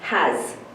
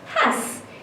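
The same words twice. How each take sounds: First: The word ends with a buzzing z sound. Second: The word ends with a hissing s sound. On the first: It matches how the word is normally read. "Using my reading voice" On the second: It matches how the word is spelled. "if I was to use my spelling voice"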